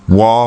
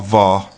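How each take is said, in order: First: It begins with a W sound. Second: It begins with a V sound. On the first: "W or V, and it's pronounced uh, either way" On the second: "W or V, and it's pronounced uh, either way"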